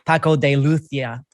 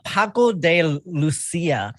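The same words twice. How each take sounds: First: The name is said with a Castilian Spanish accent. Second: The name is said with an English accent.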